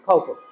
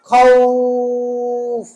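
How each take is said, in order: First: The 'aw' is short and the word ends in -un. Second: The 'aw' is drawn out; the word ends on f. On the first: The reader continues without stopping. "এটা কোনো টান নেই" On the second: The reader stops on this word. "খাউ বলে টান দেবো শেষে ফা সাকিন"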